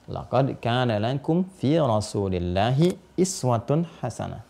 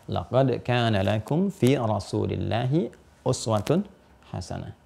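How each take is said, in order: First: The word before hasanah starts with an 'i' vowel. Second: The word before hasanah starts with a 'u' vowel. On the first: "Pakai kasrah" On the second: "uswah ini harakatnya dhammah"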